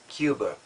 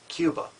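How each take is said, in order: The two takes are said the same way.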